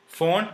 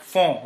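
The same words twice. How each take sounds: First: The n is pronounced separately after the vowel. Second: The vowel is nasal with no separate n. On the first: The speaker calls it wrong. "it is not font" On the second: The speaker calls it right. "but font"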